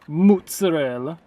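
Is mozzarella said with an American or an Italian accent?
Italian. It is said with an exaggerated Italian accent. It mimics cooking-show hosts who switch accents for this word. The speaker calls it wrong. "until they get to like mozzarella. It drives me crazy"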